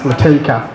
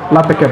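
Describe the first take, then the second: First: The name has an Australian stress pattern. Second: The name has an Indian stress pattern. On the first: "They just seem to accent different syllables" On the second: "Indians and Australians pronounce names differently"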